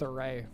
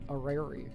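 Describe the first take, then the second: First: The word is shortened to sound like 'array'. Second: The word is said with its full 'orrery' sounds. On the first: The speaker calls it wrong. "I'm going with array" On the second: The speaker calls it right. "I've been mispronouncing it"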